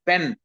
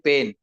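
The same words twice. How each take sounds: First: The vowel is said as a short vowel. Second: The vowel is not said as a short vowel. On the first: "a Kannada student can say pen" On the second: "a Marathi person will say pen"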